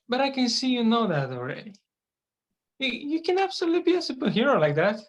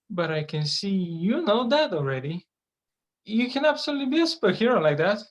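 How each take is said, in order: First: The word 'you' gets no special emphasis. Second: The word 'you' is clearly emphasized.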